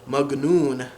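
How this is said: The word is said with a hard G sound. This is the Egyptian Arabic form. "they would say magnoon"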